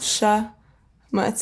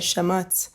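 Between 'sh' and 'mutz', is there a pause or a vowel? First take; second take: pause; vowel. First: The word is split with a pause after sh. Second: An extra vowel is inserted after sh. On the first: "my dad would make me say sh, mutz" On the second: "I still couldn't do it, so I would say shamutz"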